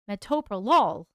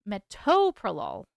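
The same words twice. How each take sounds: First: Metoprolol with the final LOL punched; stress on LOL. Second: Metoprolol with a drawn-out, punched TO; stress on TO. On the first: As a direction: lean hard on the LOL ending of Metoprolol. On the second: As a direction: lean hard on the TO in metoprolol. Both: Shown as a demonstration. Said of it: "which syllable has the emphasis".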